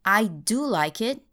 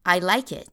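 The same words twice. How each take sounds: First: "do" stressed and rising so it stands out. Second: Said in the usual way. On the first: Shown as a demonstration. Teacher contrasting emphatic "do" with the plain form. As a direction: insist on "do" before "like". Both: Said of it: "instead of".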